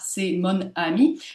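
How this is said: Each syllable is said separately, one by one. "faire prendre conscience du découpage tel qu'il est"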